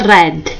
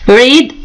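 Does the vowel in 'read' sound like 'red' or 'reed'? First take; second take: red; reed. First: The vowel is short, like in 'red'. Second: The vowel is long, like in 'reed'. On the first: This is the past participle form of the verb. "اللفظ مالته يختلف" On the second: This is the base form of the verb. "شوفوا نفس الإملاء لكن اللفظ مالته يختلف"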